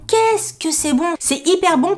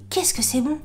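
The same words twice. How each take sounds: First: Gushing, pitched-up exclamation; emphatic delight. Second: Softly savouring the taste; hushed delight. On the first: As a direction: stretch out each word with relish. Repeats the rave, more emphatic. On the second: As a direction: marvel at it under your voice. Raves about taste, first take. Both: Retold or imitated.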